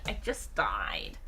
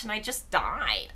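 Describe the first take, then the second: First: Slow breathy whisper, much lower and softer; hushed deadpan whisper. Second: Said in the usual way. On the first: Real, not acted. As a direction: whisper it as a dying aside. Repeating the punchline.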